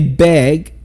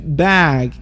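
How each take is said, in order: First: The vowel sounds like the e in bed. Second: The vowel sounds like the a in cat. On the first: The speaker calls it wrong. "Some people will say beg. That's totally wrong" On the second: The speaker calls it right. "You go bag"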